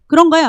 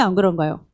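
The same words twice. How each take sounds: First: 그런가요 lifted high and bright; rising question. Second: 안 stressed, low and falling; falling answer. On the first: Pastor asks the congregation, rising question. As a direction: ask 그런가요 with an upward lilt. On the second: Pastor answers his own question, low falling. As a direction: press down on 안 then drop. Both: Shown as a demonstration.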